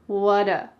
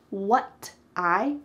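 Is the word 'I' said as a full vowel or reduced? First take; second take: reduced; full. First: The T flaps and 'I' becomes 'uh'. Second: The T is clear and 'I' is full.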